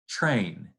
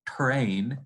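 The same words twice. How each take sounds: First: The word begins with a ch-like affricate. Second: The word begins with a plain t stop. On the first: "it's drink, train" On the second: "it's not drink or train"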